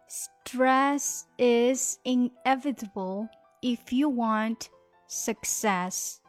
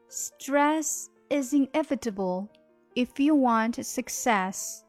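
First: The sentence is spoken at a slower pace. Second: The sentence is spoken at a faster pace.

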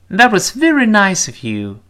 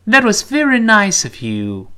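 No difference in how they are said.

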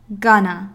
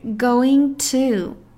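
First: The words merge into one short word. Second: Both words are said clearly and fully. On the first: "缩读形式" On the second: "标准形式"

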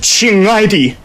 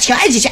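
First: The voice is full with added resonance. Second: The voice is plain and placed forward. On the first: "我们加一点这种共鸣" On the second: "咱一般啊"

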